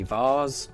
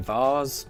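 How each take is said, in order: First: It is said with a British pronunciation. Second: The same.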